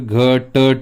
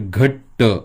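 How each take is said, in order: First: The first t sound has a full vowel. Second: The first t sound is short, without a vowel. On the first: The speaker calls it wrong. "जर पूर्णपणे पकडला तर घट होईल" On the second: The speaker calls it right. "हलंत देऊन अशा पद्धतीनं जर जोडाक्षर व्यवस्थित आणि शुद्ध लिहिलं तर"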